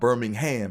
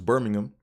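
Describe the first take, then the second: First: It is pronounced the American way. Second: It is pronounced the British way. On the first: The speaker calls it wrong. "It's not Birmingham" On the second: The speaker calls it right. "it's Birmingham. Learned that the hard way over in uh the U K"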